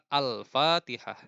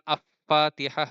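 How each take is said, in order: First: The l is pronounced clearly before the f. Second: The l merges into the following f sound. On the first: The speaker calls it right. "Al terdengar jelas" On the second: The speaker calls it wrong. "bukan Af-Fatihah"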